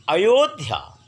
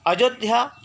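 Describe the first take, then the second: First: अयोध्या with a clear y glide, a-yo-dhya, falling; correct pronunciation. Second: अयोध्या said with a j sound, ajodhya, high rising; the wrong way: अयोध्या as a-jo-dhya; wrong pronunciation. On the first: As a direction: say अयोध्या properly with the y sound. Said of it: "बीच में जो अंत्यस्थ ज- यर है". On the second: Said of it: "ये गलत है". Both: Shown as a demonstration.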